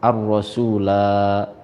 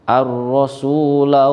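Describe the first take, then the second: First: The final syllable la is held long. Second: The final syllable la is short. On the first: The reciter stops at this word. "jika dibaca waqaf ... maka la-nya dibaca panjang" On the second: The reciter joins it to the next word. "ketika diwasolkan dengan waqalu, maka la-nya dibaca pendek"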